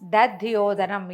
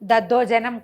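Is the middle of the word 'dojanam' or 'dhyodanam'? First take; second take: dhyodanam; dojanam. First: The word is said as dadhyodanam. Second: The word is said as daddojanam. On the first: The speaker calls it right. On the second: The speaker calls it wrong. "దద్దోజనం కాదండి"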